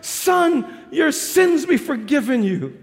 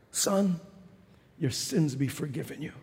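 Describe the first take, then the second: First: Slow, kind voice at normal level; kind tender words. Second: Hushed tender. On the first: Jesus to the paralysed man, kind tender words. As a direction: speak the pardon kindly, unhurried. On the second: Jesus to the paralysed man, hushed tender pardon. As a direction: breathe the pardon like a secret. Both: Acted. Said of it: "with kind, tender words".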